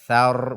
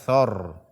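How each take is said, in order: First: The syllable is light and thin. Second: The syllable is heavy and thick. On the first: The speaker calls it right. "thar bukan thor" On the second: The speaker calls it wrong. "bukan thor"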